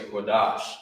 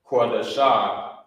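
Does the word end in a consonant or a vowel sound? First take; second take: consonant; vowel. First: The word ends on a consonant sound. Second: The word ends with an extra vowel sound. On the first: The speaker calls it right. "it's connected at the bottom. You say Kodash" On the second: The speaker calls it wrong. "instead of saying um, the shah, Kodasha"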